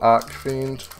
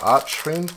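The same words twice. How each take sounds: First: The 'ch' is said as a 'k' sound. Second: The 'ch' is said as in 'church'. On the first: The speaker calls it wrong. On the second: The speaker calls it right.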